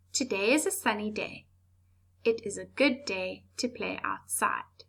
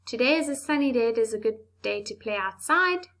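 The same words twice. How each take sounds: First: Calm reading with clear pauses at each full stop; calm corrected version with clear stops; calmer, slower. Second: Fast run-on reading with no stops; run-on sentence rushed without pauses; rushed, muddled. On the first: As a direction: read it slowly, stopping at each full stop. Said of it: "It's calmer, slower, and we can understand". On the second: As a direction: gabble it all as one breathless run. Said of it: "That sounds very muddled and confusing". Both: Shown as a demonstration.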